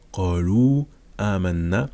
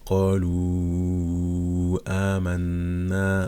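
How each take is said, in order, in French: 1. La voyelle finale de qalu est tenue brièvement. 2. La voyelle finale de qalu est tenue quatre temps. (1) "lorsqu'on prononce normalement" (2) "la règle avec quatre temps"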